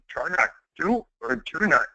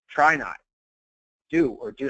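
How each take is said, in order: First: It is said in an imitated Yoda voice. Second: It is said in his normal voice.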